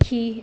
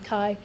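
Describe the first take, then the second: First: The letter name uses a classical Greek pronunciation. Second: The letter name uses the common modern pronunciation. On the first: "I use classical pronunciations. I say" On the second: "and not"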